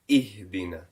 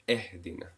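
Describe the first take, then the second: First: The first vowel is a sharp short 'i'. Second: The first vowel is a softer 'e' sound. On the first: The speaker calls it right. "a sharp downward uh, pronunciation rather than E" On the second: The speaker calls it wrong. "rather than E"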